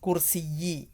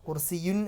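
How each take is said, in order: First: The word ends in the vowel i. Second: The word ends in the sound un. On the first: The speaker calls it right. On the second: The speaker calls it wrong. "കുർസിയുൻ എന്നല്ല വരിക"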